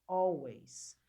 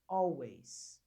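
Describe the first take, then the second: First: The first vowel sounds like 'o'. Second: The same.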